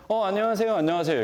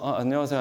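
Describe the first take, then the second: First: Bright, higher hello offered twice; eager greeting. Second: Said in the usual way. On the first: Retold or imitated. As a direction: greet the young neighbours eagerly. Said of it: "얘기했는데". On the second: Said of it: "인사를 한 분은".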